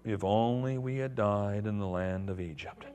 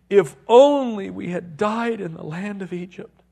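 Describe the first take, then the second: First: It is read in a mopey Eeyore voice. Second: It is read in his normal voice.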